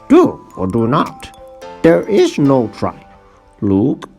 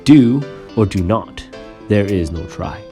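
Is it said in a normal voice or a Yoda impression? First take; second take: Yoda impression; normal voice. First: It is said in an impression of Yoda. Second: It is said in the speaker's normal voice.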